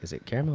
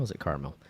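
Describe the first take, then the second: First: "caramel" said as CARE-mel, rising. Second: "caramel" said as CAR-mel, falling. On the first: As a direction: say "caramel" with an "air" vowel first. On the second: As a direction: say "caramel" with an "ah" vowel first. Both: Shown as a demonstration. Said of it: "that argument where you".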